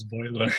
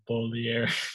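First: The name sounds like 'boiler', with two syllables. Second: The name sounds like 'bol-ee-er', with three syllables. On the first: The speaker calls it wrong. "I swear I thought it was Boiler" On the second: The speaker calls it right. "so the I is after the L"

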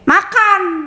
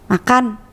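First: It is said as a command. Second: It is said as a friendly offer.

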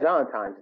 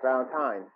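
First: The word is said with an M sound. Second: The word is said with an N sound. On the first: The speaker calls it wrong. "you say Valentine's Day with an M" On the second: The speaker calls it right. "There you go"

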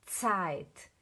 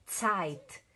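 No difference in how they are said.

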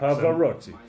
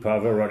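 First: It is said in an Italian accent. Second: It is said in a Welsh accent.

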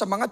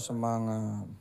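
First: The word is said loudly with lively energy. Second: The word is said weakly with flat energy. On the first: The speaker is full of spirit. The speaker calls it right. "Anda harus ngomong semangat" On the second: The speaker lacks spirit. The speaker calls it wrong. "bukan semangat"

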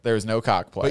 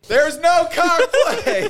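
First: It is said at normal volume. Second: It is yelled loudly.

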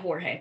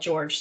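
First: The name is said with Spanish pronunciation. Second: The name is said like English George. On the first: "You're saying it with the Spanish way" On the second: "That's how it's spelled. George"

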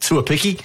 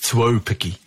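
First: The middle 'au' vowel is skipped over. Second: The middle 'au' vowel is clearly pronounced. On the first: The speaker calls it wrong. "they kind of just skip by the AU part" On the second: The speaker calls it right. "it's Tuopiki"

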